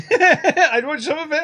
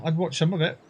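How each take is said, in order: First: High, slow, laughing through it. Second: Said in the usual way. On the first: Shown as a demonstration. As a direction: giggle the line out, pitched up. Repeats own line, laughing high.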